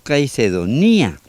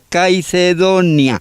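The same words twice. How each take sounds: First: The stress falls on the ni syllable. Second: The stress falls on the do syllable. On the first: The speaker calls it wrong. "no Caicedonia. Que sería un error pronunciarlo así" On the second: The speaker calls it right. "Y le llamaron Caicedonia"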